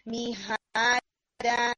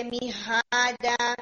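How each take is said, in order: First: میہادا slow and clean, miada; correct sound. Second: میہادا with the ha pulled toward a long mi-ha; wrong sound. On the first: Shown as a demonstration. Teacher demonstrating the correct pronunciation, slow. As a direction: draw out میہادا carefully. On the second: Retold or imitated. Teacher imitating the student's wrong vowel. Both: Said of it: "میہادا کی طرف نہیں جانی چاہیے".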